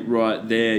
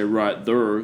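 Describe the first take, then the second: First: There is said with a standard vowel, like hair. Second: There is said with an er vowel, like her. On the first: "The problem is when you say right there" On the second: "you say right there, then all the words that rhyme with there, like hair, you also got to go her"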